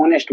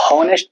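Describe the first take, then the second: First: ऑनेस्ट starting on the vowel, no h; silent h. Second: हॉनेस्ट with a sounded h at the start; wrong sounded h. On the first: Teacher giving students the right way. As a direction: say ऑनेस्ट as onest with no h. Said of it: "ऑनेस्ट बोलते हैं". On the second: Teacher showing students the wrong way. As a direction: breathe an h onto हॉनेस्ट. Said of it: "हॉनेस्ट तो नहीं बोलते". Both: Shown as a demonstration.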